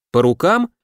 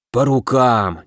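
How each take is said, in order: First: «По рукам?» с подъёмом на «рукам», как вопрос; предложить сделку, вопросительно поднимая конец. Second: «По рукам!» с ударением на «по» и падением в конце; нехотя ударить по рукам, сдаться; неохотное согласие. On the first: («По рукам?» — вопросительный подъём) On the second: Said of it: "неохотно согласился меч". («По рукам!» — нехотя, с падающим тоном) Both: A narrator's reading.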